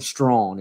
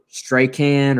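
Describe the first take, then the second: First: The name sounds like the word strong. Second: The name is read as it looks, like Strachan. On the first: The speaker calls it right. "is the absolute correct way to say it" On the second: The speaker calls it wrong. "It looks like Strachan or Strachan or something"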